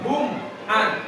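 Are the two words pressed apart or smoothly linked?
pressed apart. The words are pressed and held apart. "jelasnya itu ditekan"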